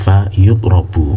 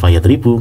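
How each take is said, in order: First: The verb starts with 'yu' and has 'ra'. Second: The verb starts with 'ya' and has 'ri'. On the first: He is the one being struck. The speaker calls it right. "Fa yutrobu, bukan fa yatribu" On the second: He is the one doing the striking. The speaker calls it wrong. "bukan fa yatribu"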